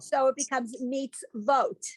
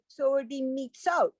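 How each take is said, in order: First: The letter is read as a v before o. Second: The letter is read as a plain o vowel. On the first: "This then becomes a letter with the dot on top" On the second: "if there were was no vowel here, then this becomes the vowel. Oh"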